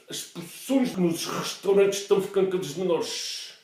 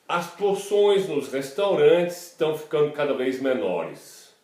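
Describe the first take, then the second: First: It is said in European Portuguese. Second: It is said in standard Brazilian Portuguese.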